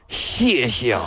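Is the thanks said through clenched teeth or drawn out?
clenched teeth. The word is forced through clenched teeth. The speaker is warning someone. "只要咬着牙说就可以了"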